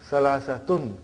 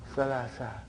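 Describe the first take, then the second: First: The word ends with a final nasal '-tun'. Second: The word ends on a plain '-a' vowel. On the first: "because there is no mudaf ilayhi, so we bring tanween" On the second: "But in pronunciation we will say salasa"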